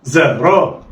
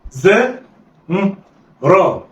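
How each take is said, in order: First: زا را snatched together in one go; blended quickly. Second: زاء and را each alone with pauses; letters read separately. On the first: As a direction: run زا and را together. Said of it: "يلا، اخطف". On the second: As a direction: sound out زاء then را slowly. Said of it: "هقول إيه؟". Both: Shown as a demonstration.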